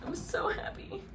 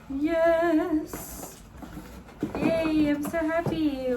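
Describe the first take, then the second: First: High breathless whisper through tears; tearful whisper. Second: High, squealing burst of joy; delighted squeal. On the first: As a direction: whisper "I'm so happy" while crying. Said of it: "I don't know why I'm crying". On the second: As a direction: squeal with real delight at the gift. Unboxing the new camera, delighted. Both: Real, not acted.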